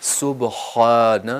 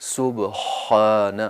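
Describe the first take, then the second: No difference in how they are said.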